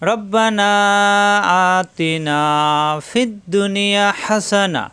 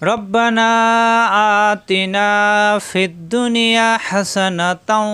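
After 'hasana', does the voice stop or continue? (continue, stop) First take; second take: stop; continue. First: The phrase stops after 'hasana' with a pause. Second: The phrase runs on without a pause after 'hasana'. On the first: "আমরা যদি আরো ছোট ছোট করে পড়ি" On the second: "এক নিঃশ্বাসে পড়লে"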